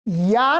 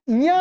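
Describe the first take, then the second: First: "या" as a pure oral yaa; oral vowel, no nasal. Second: "या" nasalised to yaan; nasal vowel. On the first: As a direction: say "या" with no nasal sound. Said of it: "या नहीं आ रहा". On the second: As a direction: send the vowel of "या" through the nose. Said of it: "या आ रहा". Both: Shown as a demonstration.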